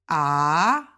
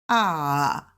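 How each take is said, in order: First: The pitch rises from low to high. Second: The pitch dips down and comes up. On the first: "the second tone goes from low to high" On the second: "the third tone. Ah. It dips"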